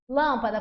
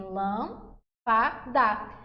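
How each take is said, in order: First: Said in the usual way. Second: "lâmpada" slowly, in three separate syllables; teacher's slow syllable-by-syllable "lâmpada", pausing between parts; split into syllables. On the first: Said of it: "como que a gente divide". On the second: Shown as a demonstration. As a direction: break "lâmpada" into lâm, pa, da. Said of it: "A gente divide em".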